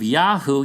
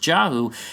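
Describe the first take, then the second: First: The word begins with a Y sound. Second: The word begins with a J sound. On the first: The speaker calls it right. "instead of Yahoo" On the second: The speaker calls it wrong. "infusing Yiddish into it to make it sound like it's pronounced Jahu"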